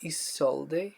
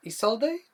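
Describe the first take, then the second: First: Isolde ending in an ay sound; tentative name pronunciation. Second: Isolde ending in ee, high questioning rise; retry Isolde as ee-SOL-dee, voice lifting; second pronunciation attempt. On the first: Streamer reading a viewer's name, unsure Isolde ending in ay. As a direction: try Isolde as ee-SOL-day, questioning. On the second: Streamer retrying a viewer's name, unsure Isolde ending in ee, higher. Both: Shown as a demonstration. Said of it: "I hope I said that right".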